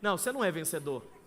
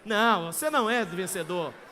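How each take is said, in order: First: It is said in a neutral tone. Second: It is said in a mocking tone.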